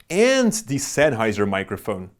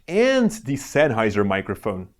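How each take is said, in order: The two takes are said the same way.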